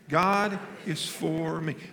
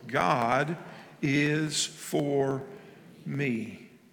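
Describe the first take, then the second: First: It is said at normal speed. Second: It is said slowly.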